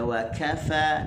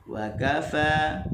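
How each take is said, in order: First: The k is said with a puff of air. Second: The k is said without a puff of air. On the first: The speaker calls it wrong. "jangan baca wa kafa, tak boleh. Kaf dia tidak boleh ada angin begitu" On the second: The speaker calls it right. "tekan di kaf"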